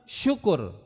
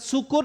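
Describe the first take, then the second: First: It begins with a thick sh sound. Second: It begins with a thin, plain s sound. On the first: Giving thanks. The speaker calls it right. "sin tebal" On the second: Being drunk. The speaker calls it wrong. "Sin kecil, sin tipis"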